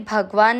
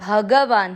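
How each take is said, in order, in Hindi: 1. 'g' बिना किसी बाद वाले स्वर के बोला जाता है। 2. 'g' छोटे 'a' स्वर के साथ बोला जाता है। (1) "ये भगवान नहीं है" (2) "दोनों अक्षर पूरे हैं, दोनों में अ मिक्स करना है"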